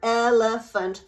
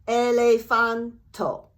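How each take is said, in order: First: It has three syllables ending in a consonant. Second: A vowel is added after the final consonant. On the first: "For English, the word elephant, three syllables" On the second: "In Japanese, it will be elefanto"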